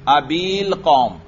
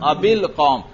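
First: The vowel before the article is long. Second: The vowel before the article is short. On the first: The speaker calls it wrong. "اگر یا برقرار ہوتی تو میں کیسے پڑھتا؟" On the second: The speaker calls it right. "تو یا گر چکی ہے"

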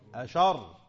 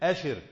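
First: Sh takes an a vowel, and r is doubled. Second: Sh takes an i vowel, and r is single. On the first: "بفتح الشين وتشديد الراء" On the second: "قراءة الجمهور أشر على وزن فرح"

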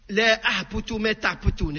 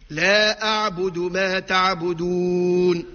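First: The b is said voiceless, like a p. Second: The b is said fully voiced. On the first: The speaker calls it wrong. "الباء إذا كان ما نعطيوهاش الجهر شو تولي يا جماعة؟ تولي حرف أعجمي" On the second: The speaker calls it right. "نعطيه الجهر"

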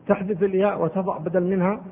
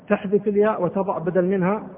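No difference in how they are said.

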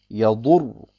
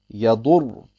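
Both takes have the same delivery.

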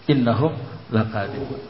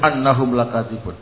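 First: The first word begins with an 'i' vowel. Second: The first word begins with an 'a' vowel. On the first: The speaker calls it right. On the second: The speaker calls it wrong.

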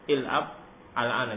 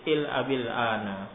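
First: The first word ends in a bare consonant. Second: An i-vowel links the first word to the next. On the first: The speaker calls it wrong. "sukun kamu sukun, susah" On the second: The speaker calls it right. "sehingga dikasrokan"

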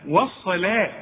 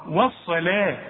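Both takes have the same delivery.

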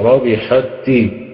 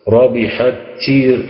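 First: The first t merges silently into the next. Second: The first t has an audible breathy release. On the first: The speaker calls it right. "ربحت تي وليس فيها من همس" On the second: The speaker calls it wrong. "ما تنفعش المسألة دي"

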